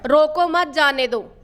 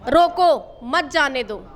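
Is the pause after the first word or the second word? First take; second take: second word; first word. First: The pause comes after the second word. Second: The pause comes after the first word. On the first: Do not stop them; let them go. "इसका मतलब रोको मत जाने दो" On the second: Stop them; do not let them go. "इसको रोक लो मत जाने दो"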